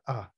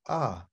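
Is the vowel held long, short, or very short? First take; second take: very short; short. First: The vowel is cut off very quickly. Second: The vowel is held only briefly. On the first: "or even shorter" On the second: "or it could be short"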